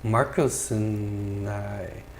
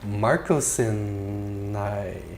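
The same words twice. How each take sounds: No difference in how they are said.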